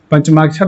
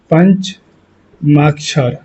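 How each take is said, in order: First: Said in the usual way. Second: Very slow, broken into syllables; drawn out. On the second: Shown as a demonstration. Teacher giving pupils the exam term, drawn out. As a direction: spell it out slowly, pausing midway.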